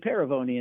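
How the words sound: The name is said the American way.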